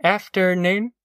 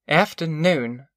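First: Higher-pitched greeting, rising at the end; politely questioning hello; mother's greeting. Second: Slow, cold greeting; proud, frosty hello. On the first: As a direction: return the greeting with a questioning lift. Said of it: "said Ma". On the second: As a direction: greet coldly, drawing the word out. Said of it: "she said coldly". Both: A narrator's reading.

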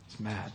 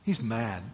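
First: He's mad repeated much softer and lower; quiet echo. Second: Said in the usual way. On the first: Real, not acted. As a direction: let He's mad drop to a hushed echo.

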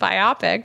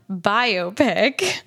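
First: Biopic as by-OP-ick; mispronounced biopic. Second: Biopic as BY-oh-pick; correct pronunciation. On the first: Owning up to an earlier mistake, biopic said by-OP-ick. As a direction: say "biopic" to rhyme with myopic. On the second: Naming the [name] film, biopic said BY-oh-pick. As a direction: say "biopic" as bio plus pic, stressed on the first syllable. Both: Shown as a demonstration. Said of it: "I said biopic before, which is not".

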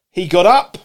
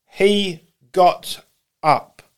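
First: Louder, lifted on UP; brisk, forceful statement; emphatic reading. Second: Each word set apart by pauses; very slow, deliberate; slow, weighty repeat. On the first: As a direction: read it out with a rising punch on UP. Reads verse, then repeats for weight. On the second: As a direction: let HE, GOT, UP land one by one. Repeats verse slowly for weight. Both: Acted.

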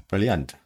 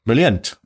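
First: Said in the usual way. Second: Half-hearted accent attempt on the word Brilliant. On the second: Shown as a demonstration. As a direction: try out a mock accent on Brilliant. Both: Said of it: "almost my world accent".

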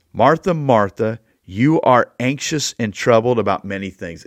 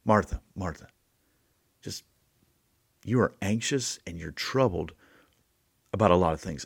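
First: Firm, louder, slowed on the names; Jesus calling Martha sharply to get her attention; attention-getting call. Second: Soft, gentle reassurance; Jesus gently calming an anxious Martha. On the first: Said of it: "one, to get her attention". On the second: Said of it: "two, to calm her down". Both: Shown as a demonstration.

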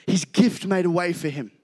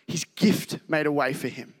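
First: Said in the usual way. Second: "His gift made a way for him" repeated softer, leaning on "made". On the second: Shown as a demonstration. Preacher repeating the key verse softly, stressing "made".

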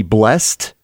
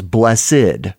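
First: Blessed said as one syllable; blessed with the e-d closed up. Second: Blessed said as two syllables; blessed as bless plus ed. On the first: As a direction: say blessed as a single beat, ending in a t. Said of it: "it is pronounced as one syllable". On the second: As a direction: read blessed with a separate ending syllable. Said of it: "Two syllables here". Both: Shown as a demonstration.

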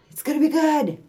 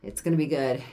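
First: Much higher, cheerier repeat; upbeat repeat. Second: Said in the usual way. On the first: Shown as a demonstration. Reassuring cohost about the move, a high upbeat repeat. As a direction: lift it high and bright the second time. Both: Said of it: "repeated reassurance".

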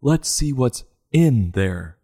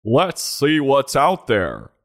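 First: Slow, heavy stress on "in", falling after it. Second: Slow, grand reading with the weight on "out"; dramatic quote reading. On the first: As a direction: lean hard on "in" like a doctor's line. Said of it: "As long as it's not". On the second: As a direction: read the motto like a movie trailer. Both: Acted.

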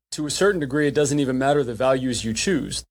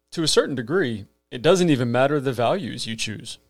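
No difference in how they are said.

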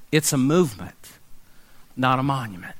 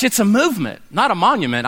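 First: Lower, softer, hushed restatement; soft repeat. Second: Said in the usual way. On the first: Acted. Pastor to congregation, softer and lower slogan. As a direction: let the slogan sink in quietly.

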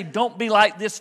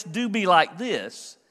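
First: Said in the usual way. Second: Slow, deliberate stress on do. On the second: Shown as a demonstration. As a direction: do pressed, slower than the line before.

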